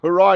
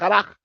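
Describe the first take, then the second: First: It ends on an open vowel, like 'hurrah'. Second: It ends with a rough throat sound. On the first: The speaker calls it wrong. "He's calling it hurrah" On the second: The speaker calls it right. "instead of Harach"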